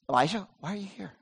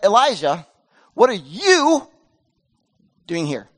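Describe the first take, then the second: First: It sounds gentle and caring. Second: It sounds harsh and rebuking.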